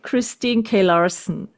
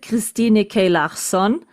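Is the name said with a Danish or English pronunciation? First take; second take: English; Danish. First: The name has an English pronunciation. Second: The name has a Danish pronunciation. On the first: This is how English speakers say the name. "the English-speaking people are saying" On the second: This is the name's original pronunciation. "we pronounce it"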